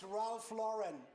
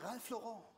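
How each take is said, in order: First: The name is said with an American pronunciation. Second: The name is said with a French pronunciation. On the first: "der gute Mann ist Amerikaner. Das ist" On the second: "Franzosen sagen"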